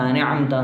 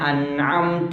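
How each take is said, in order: First: It is rushed, running the sounds together. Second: It is said carefully with a clear ain. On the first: The speaker calls it wrong. "ചില ആളുകൾ വേഗത്തിൽ ഓതുമ്പോൾ ... അതൊക്കെ തെറ്റാണ്" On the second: The speaker calls it right. "ഐന് പ്രത്യേകം ശ്രദ്ധിക്കണം"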